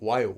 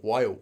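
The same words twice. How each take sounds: First: The o and a merge into one quick wa. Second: The same.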